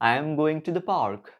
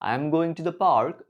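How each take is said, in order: No difference in how they are said.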